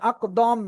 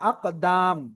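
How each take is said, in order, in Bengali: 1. শেষ স্বরধ্বনিটি একটি গোল 'o'। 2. শেষ স্বরধ্বনিটি একটি খোলা 'a'। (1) "এখন যদি দম পড়েন তাহলে তো হবে না" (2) "আকার পড়তে হবে"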